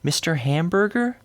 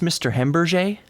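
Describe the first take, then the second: First: The name sounds like the English word hamburger. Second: The name is given a French-sounding pronunciation. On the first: The caller risks sounding offensive. "they don't want to say" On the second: The caller is trying to avoid offending. "They make it French"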